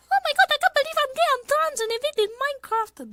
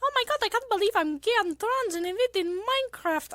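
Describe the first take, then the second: First: Put-on very high, fast anime girl voice; [name] voice. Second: Warming up into a Vocaloid squeak; [name] voice attempt. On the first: Streamer finally landing the [name] voice, very high. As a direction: nail the bright Vocaloid squeak. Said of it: "There we go, there's [name]". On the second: Streamer trying to find her [name] voice, high. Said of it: "I'm trying to get my [name] voice".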